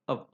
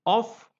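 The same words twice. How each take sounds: First: OF reduced to "uhv"; weak form. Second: OF with a full "o" vowel; strong form. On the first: Teacher listing preposition forms, weak form. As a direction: say OF short with a neutral vowel. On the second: Teacher listing preposition forms, strong form. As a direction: say OF as a stressed full word. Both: Shown as a demonstration. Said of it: "it has a weaker form".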